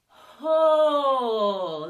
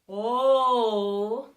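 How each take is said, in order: First: The vowel starts with a small breathy h sound. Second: The vowel starts cleanly with no breath before it. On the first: "an aspirated would be ho" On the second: "a coordinated onset might be oh"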